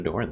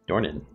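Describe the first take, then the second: First: The name is said as one syllable. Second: The name is said as two syllables. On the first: The speaker calls it wrong. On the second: The speaker calls it right.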